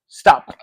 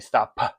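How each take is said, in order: First: The final p is plain, without an extra puff. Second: The final p is released with a clear puff. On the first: The speaker calls it wrong. "instead of stop stop" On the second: The speaker calls it right. "you have to say stop puh"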